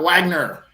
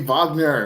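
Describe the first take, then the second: First: The name begins with a W sound. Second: The name begins with a V sound. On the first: The speaker calls it wrong. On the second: The speaker calls it right. "can you please say"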